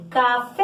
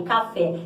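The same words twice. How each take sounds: First: "Café" called out with a long, held FÉ; chamando no portão. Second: Said in the usual way. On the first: Shown as a demonstration. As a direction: call "Café" as if at the gate, stretching the last syllable. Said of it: "A gente chama a palavra no portão". ("Café" chamado, esticando o "fé") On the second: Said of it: "Igual a palavrinha que tá aí".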